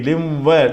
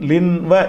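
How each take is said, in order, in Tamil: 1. மூக்கொலி அடுத்து வரும் w ஒலியுடன் இணைகிறது. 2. w ஒலிக்கு முன் தெளிவான n ஒலி சொல்லப்படுகிறது. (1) "லிம் வன்னு சொல்லணும்" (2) "லின் வ என்று சொல்லாமல்"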